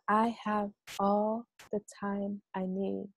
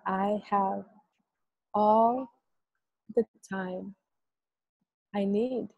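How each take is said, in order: First: The phrase is spoken at an ordinary pace. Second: The phrase is spoken slowly and drawn out.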